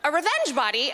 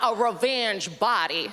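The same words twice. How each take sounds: First: Said in the usual way. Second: Slow, lower lightly voiced camp friend; a touch of camp, drawn out; sassy friend. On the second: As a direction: repeat it slowly as the sassy friend. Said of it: "That's the voice".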